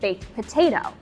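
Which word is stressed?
potato. The emphasis falls on the word potato. The speaker calls it right. "put emphasis on potato"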